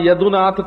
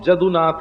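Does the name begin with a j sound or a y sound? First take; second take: y sound; j sound. First: The name begins with a y sound. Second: The name begins with a j sound.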